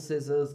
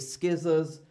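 First: No k sound follows the first s. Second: A k sound follows the first s. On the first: The speaker calls it right. "When these are together, it's usually silent" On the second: The speaker calls it wrong. "we don't say scissors"

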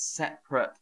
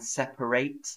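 First: It is said with the adjective pronunciation. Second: It is said with the verb pronunciation. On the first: It describes things that are apart. "So separate is an adjective" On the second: It names the action of moving things apart. "Or there is the verb to separate"

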